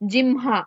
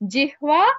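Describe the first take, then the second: First: The middle cluster sounds like 'mh'. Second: The middle cluster sounds like 'hv'. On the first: "ha ma also correct" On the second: "in place of jihva, jimha"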